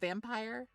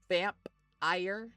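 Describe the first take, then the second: First: The word is said smoothly as one piece. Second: The word is broken between vamp and ire. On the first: "as opposed to vampire" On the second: "you could pronounce the other spelling slightly differently"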